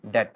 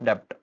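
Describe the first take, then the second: First: No consonant is heard before the final t. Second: A p-like sound is heard before the t. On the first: The speaker calls it right. "ये आपका डेट" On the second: The speaker calls it wrong. "Not डेप्ट"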